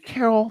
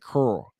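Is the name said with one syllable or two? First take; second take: two; one. First: The name is said with two syllables. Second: The name is said with one syllable. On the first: This is how people elsewhere say it. "where I'm from, they don't say Carol" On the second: This is how people where the speaker is from say it. "They say Curl"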